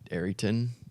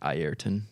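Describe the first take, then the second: First: The name is said in an anglicized way. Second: The name is said in its original way. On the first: This is how people here usually say it. The speaker calls it wrong. "you say Arring, Arrington" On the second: This is how the name is supposed to be said. The speaker calls it right. "but he says like Ayrton. Because that's how you say it"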